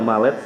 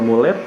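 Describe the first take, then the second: First: The first vowel sounds like 'ah'. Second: The first vowel sounds like 'oo'. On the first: "boleh dibaca malet" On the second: "Boleh dibaca mulet"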